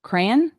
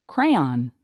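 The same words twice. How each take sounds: First: "Crayon" squeezed into one syllable, cran; pron of crayon. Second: "Crayon" in two syllables, cray-on, lower; pron of crayon. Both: Shown as a demonstration. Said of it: "try and pronounce".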